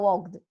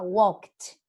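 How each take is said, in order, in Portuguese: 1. O final não tem som de T. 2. O final tem som de T. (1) "Vocês não vão falar walked" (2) "Vocês vão falar walked com som de T"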